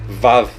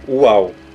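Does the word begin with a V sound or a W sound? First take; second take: V sound; W sound. First: The word begins with a V sound. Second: The word begins with a W sound. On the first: The speaker calls it wrong. "ao invés do V" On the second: The speaker calls it right. "mais puxado pro U ... e sim uau, porque tem um som de U"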